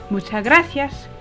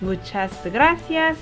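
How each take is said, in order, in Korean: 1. 빠르게 말하면 muchas가 mucha처럼 들려요. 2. 천천히 말하면 muchas의 s가 발음돼요. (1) "조금 빨리 말하다 보면 muchas가 mucha라고 그냥 들리는 경우도 굉장히 많아요" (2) "천천히"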